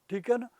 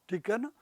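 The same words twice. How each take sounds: Both takes have the same delivery.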